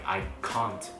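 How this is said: It is said with a British accent. "I would say stuff like I can't"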